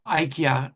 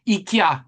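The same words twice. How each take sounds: First: "ikea" begun with a long I, like eye; eye-KEE-ah pronunciation. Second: "ikea" begun with an ee sound; ee-KEE-ah pronunciation. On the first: Speaker offering the other pronunciation, "ikea" said eye-KEE-ah. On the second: Speaker naming a real-life example, "ikea" said ee-KEE-ah. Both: Shown as a demonstration. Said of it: "some pronounce it that way".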